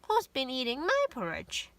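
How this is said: It is said in a medium voice.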